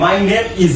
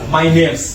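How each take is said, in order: First: The words 'name is' are said separately in full. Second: The words 'name is' are run together as 'name's'. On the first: The speaker calls it wrong. "আগের মতো করে না" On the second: The speaker calls it right. "আমরা এইভাবে formal ওয়েতে বলবো"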